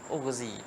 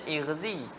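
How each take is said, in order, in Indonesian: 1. Kata itu dimulai dengan vokal u. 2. Kata itu dimulai dengan vokal i. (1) "Tapi baca ugh ughzi sebab asal dia apa?" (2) "zahirnya nak baca ighzi"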